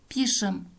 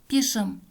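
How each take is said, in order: Both takes have the same delivery.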